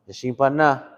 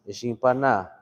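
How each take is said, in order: First: It is said in a gentle, kind way. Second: It is said in a gentle, kind way.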